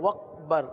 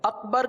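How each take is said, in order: First: The word begins with a w sound. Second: The word begins with a clean glottal stop. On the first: The speaker calls it wrong. "हमजा को हमने वाव बना दिया ना" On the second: The speaker calls it right. "अकबर कहने के बजाय"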